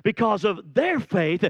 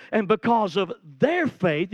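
First: Their hit again, firmly stressed. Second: Their leaned on firmly; stress on their. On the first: Preacher repeats their faith with heavy stress. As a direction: land hard on their. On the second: Preacher drives home their to the congregation, stressed. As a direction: press the word their hard. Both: Shown as a demonstration. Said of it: "you gotta get this".

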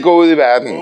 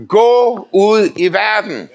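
First: Said in the usual way. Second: Slow, weighty "Gå ud i verden" with stress on "Gå"; emphatic quote. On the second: Shown as a demonstration. Preacher proclaiming the scripture slowly and emphatically. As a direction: lean hard on "Gå" and draw the phrase out. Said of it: "Står".

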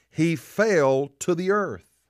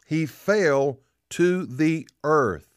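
First: "He fell to the earth" slowly, with weight on FELL; preacher's slow emphasis on FELL; emphatic statement. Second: "He fell ... to ... the ... earth", broken into slow pieces; very slow, deliberate emphasis on each word; drawn-out repetition. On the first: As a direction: stretch FELL, then finish the phrase. Repeats the verse for emphasis. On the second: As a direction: pause after FELL, weigh TO THE EARTH word by word. Repeats it more drawn out. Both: Real, not acted.

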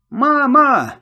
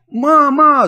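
First: High, loud cry of fear; screaming for mum. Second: Even higher, much louder desperate wail; louder scream for mum. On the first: Boy screaming for his mother as pirates close in, frightened cry. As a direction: cry out for your mother in panic. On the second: Boy screaming again for his mother, desperate wail. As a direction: scream harder as no one comes. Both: A narrator's reading. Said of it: "завопил я".

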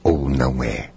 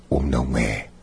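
No difference in how they are said.

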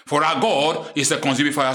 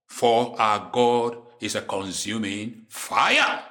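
First: Said in the usual way. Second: Slow, deep and weighty, drawn out to the end; slow, low, solemn. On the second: Shown as a demonstration. Preacher to his flock, a slow low solemn warning. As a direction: let the words fall slowly like a grave warning.

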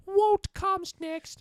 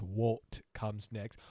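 First: High, slow, hammed-up fake British accent; mock a bad stage British accent; over-the-top fake British accent. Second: Said in the usual way. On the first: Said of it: "really fake British accent". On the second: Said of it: "when he says".

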